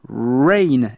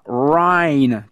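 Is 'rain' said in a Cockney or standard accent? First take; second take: standard; Cockney. First: It is said in a standard English accent. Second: It is said in a Cockney accent. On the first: The speaker calls it right. "bien prononcer rain, R-A-I-N" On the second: The speaker calls it wrong. "et non pas rain, comme la Cockney Eliza Doolittle"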